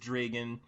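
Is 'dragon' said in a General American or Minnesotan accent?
Minnesotan. It is said in a Minnesotan accent. "it's dragon"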